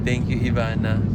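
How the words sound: It is said in an angry tone. "Number four, angry"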